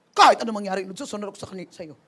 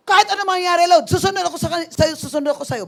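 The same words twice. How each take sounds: First: Said in the usual way. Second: Loud, high declaration of faith, easing at the end; angry vow. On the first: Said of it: "Ilang beses ko ginawa". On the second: Retold or imitated. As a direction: shout your vow to the Lord in anger. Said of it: "yung galit na galit ka".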